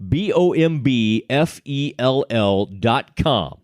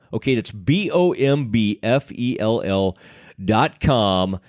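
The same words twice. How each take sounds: First: Slow, careful letter-by-letter "B O M B F E L L"; spelled out slowly. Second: Said in the usual way. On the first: Shown as a demonstration. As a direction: spell "B O M B F E L L" slowly so nobody misses it. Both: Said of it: "I want to spell this out for you".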